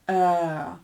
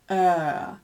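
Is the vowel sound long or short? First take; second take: long; long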